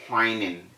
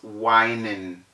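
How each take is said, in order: First: The word begins with a breathy hw sound. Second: The word begins with a plain w sound. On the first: The speaker calls it wrong. "You don't say whining" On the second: The speaker calls it right. "it's whining"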